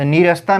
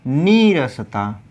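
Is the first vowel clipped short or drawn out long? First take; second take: short; long. First: The first syllable is clipped short and abrupt. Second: The first syllable is drawn out and long. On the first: The speaker calls it wrong. "झटके से नहीं बोला जाएगा" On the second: The speaker calls it right. "आराम से मतलब थोड़ा समय लेकर बोला जाएगा"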